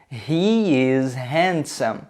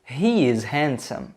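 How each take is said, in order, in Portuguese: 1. A frase é falada devagar. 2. A frase é falada mais rápido.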